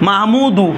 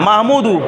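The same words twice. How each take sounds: No difference in how they are said.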